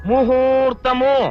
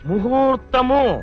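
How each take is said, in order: No difference in how they are said.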